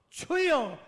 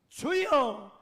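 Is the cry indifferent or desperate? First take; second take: desperate; desperate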